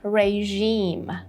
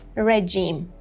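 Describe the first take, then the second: First: The second syllable has a long, strong vowel. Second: The second syllable has a short, weak vowel. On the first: The speaker calls it right. "a long E here and even stronger" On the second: The speaker calls it wrong. "we don't say regime"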